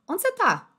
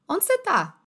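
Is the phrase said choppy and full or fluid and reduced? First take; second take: fluid; fluid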